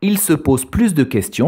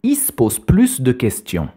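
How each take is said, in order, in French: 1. Les voyelles e dans 'se' et 'de' sont prononcées. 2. Les voyelles e dans 'se' et 'de' sont supprimées.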